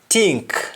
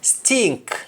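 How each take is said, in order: First: The word begins with a t sound. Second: The word begins with an s sound. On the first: "In Jamaican, the S T in most cases changes to T" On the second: "words that start with S T"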